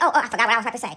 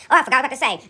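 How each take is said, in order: First: Lower, dopey mock of a caller who forgot. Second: Lower, lazy repeat of the fumbling line; mock caller repeat. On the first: Mocking a caller who phones with nothing to say, low and dopey. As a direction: play the clueless caller fumbling for words. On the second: Mocking the same caller again, a bit lower and lazy. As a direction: drag out the forgetful excuse again. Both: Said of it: "I ain't gonna call you and say".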